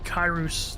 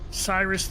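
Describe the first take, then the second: First: The name begins with a hard K sound. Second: The name begins with a soft S sound. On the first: This is the form in the original tongue. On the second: This is the common modern form.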